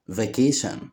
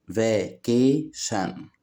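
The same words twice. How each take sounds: First: Said in the usual way. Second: "vacation" slowly as va, ca, tion; split into syllables. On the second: Shown as a demonstration. Teacher showing children three syllables, "vacation" split slowly. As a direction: say "vacation" in three separate beats. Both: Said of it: "كلمات فيها تلات مقاطع صوتية".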